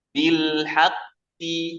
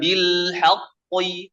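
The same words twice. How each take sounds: First: Bil haqqi lighter, very slow; light correct demo. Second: Bil haqqi too heavy, slow; overthick wrong demo. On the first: Teacher showing the lighter correct reading. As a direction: keep haqqi light, drawn out. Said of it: "Lebih ringan". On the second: Teacher showing the wrong heavy reading. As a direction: thicken haqqi too much, slowly. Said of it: "bukan bil haqqi". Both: Shown as a demonstration.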